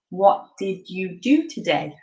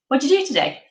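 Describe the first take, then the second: First: The words are said slowly and fully, one by one. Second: The words run together quickly in one reduced chunk. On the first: "slowing it down can be quite hard" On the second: "it just goes"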